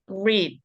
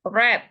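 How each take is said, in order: First: The word uses the present-tense pronunciation. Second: The word uses the past-tense pronunciation. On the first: The verb is in its base form. The speaker calls it wrong. "not read" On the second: The verb is in its past participle form. The speaker calls it right. "harus dibacanya read"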